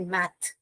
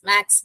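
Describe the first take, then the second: First: The word ends with a soft th sound. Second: The word ends with a ks sound. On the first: The speaker calls it right. "Native speakers हाँ क्या कहते हैं, इसे मैथ" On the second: The speaker calls it wrong. "हम एस करके डाल के इसे हम मैक्स मैक्स मैक्स बोलते हैं"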